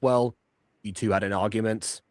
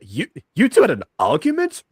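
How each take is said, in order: First: It sounds calm and matter-of-fact. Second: It sounds shocked and incredulous.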